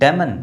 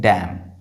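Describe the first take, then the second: First: The word ends with an added n sound. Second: The word ends on the m sound. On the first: The speaker calls it wrong. "डैमन नहीं" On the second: The speaker calls it right. "ये लिखा है डैम"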